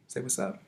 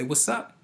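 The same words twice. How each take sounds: First: Sing-song coaxing. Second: Said in the usual way. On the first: Real, not acted. Prompting goddaughter again.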